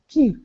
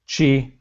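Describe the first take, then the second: First: The word begins with a 'k' sound. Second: The word begins with a 'ch' sound. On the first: The speaker calls it wrong. "the American way, man. California pronunciation" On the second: The speaker calls it right. "you're right"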